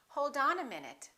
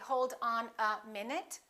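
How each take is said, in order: First: The words are linked smoothly together. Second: Each word is said separately, not linked. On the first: The speaker calls it right. "What do we say?" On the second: The speaker calls it wrong. "We don't say"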